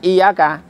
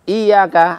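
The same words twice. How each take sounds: First: The 'y' sound is short, not doubled. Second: The 'y' sound is doubled and held long. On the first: It means the light of the sun. The speaker calls it wrong. "kalau dibaca iyaka enggak ditasydid" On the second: It means only to you. The speaker calls it right. "hanya pada engkau"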